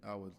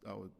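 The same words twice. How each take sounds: The two takes are said the same way.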